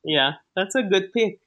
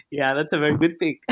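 First: Said in the usual way. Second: Quick, lower, teasing "very good pick"; mock praise. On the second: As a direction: tease him with fake admiration. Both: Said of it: "I'm teasing".

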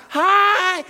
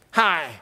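First: Bursting "Hi", much higher and louder; genuine hi. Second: Fake hi. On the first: Pastor showing the congregation a genuine greeting, bursting with joy. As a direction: greet like you're thrilled to see them. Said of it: "be genuine about it". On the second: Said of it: "not fake". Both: Shown as a demonstration.

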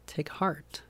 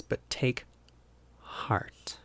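First: Tender, softer take heart; quiet reassuring repeat; soft echo. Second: Heart fades to a whisper; softly read, heart whispered; hushed verse. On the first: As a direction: repeat it gently to yourself. Repeating the phrase softly. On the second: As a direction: let heart drop to a breath. Reading the verse, fading. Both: Acted.

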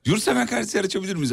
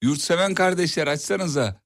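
First: Laughing through the line; trying to stay straight but laughing. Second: Slow, stress on Yurtseven; slow and deliberate. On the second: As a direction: Yurtseven said slowly and pointedly. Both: Shown as a demonstration. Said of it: "Bir daha cümleyi bir daha söylesen".

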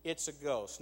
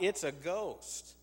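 First: Said in the usual way. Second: Slow, fearful cry of the disciples; the disciples cry out in terror on the water, slow and fearful; frightened cry. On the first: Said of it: "and so they say". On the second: A narrator's reading. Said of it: "in fear, they cried out".

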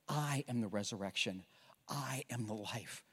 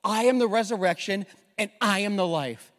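First: Quiet Jesus. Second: Louder, higher proclamation; proclaiming. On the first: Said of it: "He says". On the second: Preacher repeating Jesus' words to the congregation, proclaimed loudly. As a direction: ring it out boldly. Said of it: "this is so powerful". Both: Acted.

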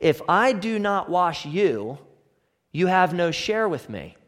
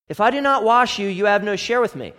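First: Said in the usual way. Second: Preacher repeats Jesus' words to press them home, emphatic. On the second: Shown as a demonstration. Emphatic repeat. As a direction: repeat it higher and louder, NOT hit hard.

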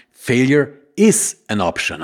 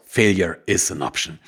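First: Slow, with "is" stressed and falling. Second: Said in the usual way. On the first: Shown as a demonstration. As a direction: lean on "is" in "Failure is an option.". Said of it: "Die Folge heißt ja nun nämlich". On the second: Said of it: "Of course".

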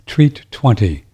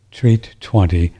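First: Slow, careful through hiccups; slow, careful words between hiccups. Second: Said in the usual way. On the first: Real, not acted. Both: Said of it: "I got the hiccups".

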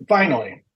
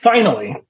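First: Said in the usual way. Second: Said around a sip of seltzer; mid-sip from a drink; while sipping a drink. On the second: Real, not acted. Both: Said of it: "sorry, I'm drinking my seltzer".

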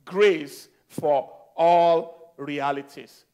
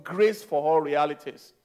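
First: "Grace for All Realities" drawn out, weight on ALL; slow, deliberate title. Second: Said in the usual way. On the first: Real, not acted. Preacher repeating the message title to the congregation, slow and emphatic. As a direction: spell out each word slowly, stretching ALL.

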